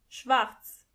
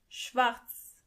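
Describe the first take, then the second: The two takes are said the same way.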